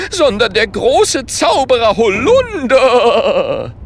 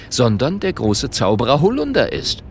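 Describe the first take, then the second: First: High, loud, drawn-out shout; indignant proclamation. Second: Said in the usual way. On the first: A narrator's reading. Holunder declaring himself a great wizard, indignant shout. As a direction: proclaim it, roaring out the name. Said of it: "sagt empört".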